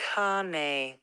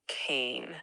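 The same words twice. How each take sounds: First: The word is said with an Italian pronunciation. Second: The word is said with an English pronunciation. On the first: The speaker calls it right. "It comes from the Italian word cane" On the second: The speaker calls it wrong. "not cane"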